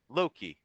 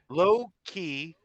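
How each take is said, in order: First: It sounds like one joined word, Loki. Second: It sounds like two separate words, low key. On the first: The speaker calls it right. "Do you hear the difference?" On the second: The speaker calls it wrong. "you keep calling it low key and it drives me nuts"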